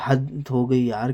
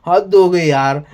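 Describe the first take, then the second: First: Softer and slow, giving up; resigned, trailing off. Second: A fed-up, slightly louder sigh of disbelief; exasperated outburst. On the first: Reviewer giving up on Tanya's bragging, resigned and soft. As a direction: let it die away in weary disbelief. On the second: Reviewer fed up with Tanya's bragging, exasperated. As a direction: throw it out like you've had enough. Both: Real, not acted. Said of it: "हंसी भी आ रही है और गुस्सा भी".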